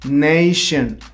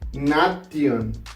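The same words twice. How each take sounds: First: The ending is said like 'shin'. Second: The ending is said like spelled 'tion'. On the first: The speaker calls it right. "You pronounce it shin" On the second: The speaker calls it wrong. "it's not nation"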